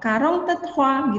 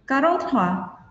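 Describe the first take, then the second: First: A 'te' sound is heard before the last word. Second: The 'te' sound is dropped before the last word. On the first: "karong te trois gitu" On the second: "te-nya dilesapkan di tengahnya"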